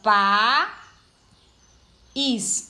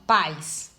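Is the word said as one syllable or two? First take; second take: two; one. First: The vowels are split into two syllables. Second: The vowels are joined in one syllable. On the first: It means country. "a palavra país é separado, né? Fica" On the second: It means parents. "Pais é, fica assim, ó"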